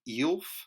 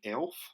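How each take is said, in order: First: The word starts with a long e vowel. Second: The word starts with a short e vowel. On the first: "EELF is actually a decent way to do it" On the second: "the conventional way of pronoun- pronouncing uh, vowels"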